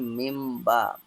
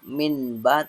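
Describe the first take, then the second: First: The sound before b is an m. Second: The sound before b is an n. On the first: The speaker calls it right. "tapi mimba" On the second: The speaker calls it wrong. "bukan minba"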